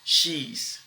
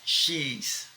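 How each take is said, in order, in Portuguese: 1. "She is" é reduzido para uma única sílaba. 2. "She is" é reduzido para uma única sílaba.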